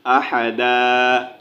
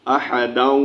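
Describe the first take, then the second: First: Slow अहदा ending on a long open "aa", with no final n; pausal reading. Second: अहदौ run on into the next word with the vowel change; अहदौ joined to what follows, not closed on "aa"; connected reading. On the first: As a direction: stop on अहदा with the nunation muted. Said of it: "वक़फ़ करेंगे तो अहदा पढ़ेंगे". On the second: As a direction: read अहदौ as the non-stop form, flowing forward. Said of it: "वक़फ़ नहीं करेंगे तो". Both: Shown as a demonstration.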